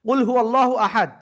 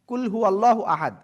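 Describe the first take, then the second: First: The first consonant is deep and heavy. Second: The first consonant is plain and light. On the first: Say: God is one. The speaker calls it right. "মোটা আওয়াজে উচ্চারণ করতে হবে" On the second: Eat: God is one. The speaker calls it wrong. "এটা উচ্চারণ এভাবে না করে"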